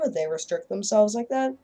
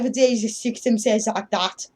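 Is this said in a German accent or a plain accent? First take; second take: plain; German. First: It is said in the speaker's ordinary accent. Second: It is said in a thick German accent. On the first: The speaker calls it wrong. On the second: The speaker calls it right.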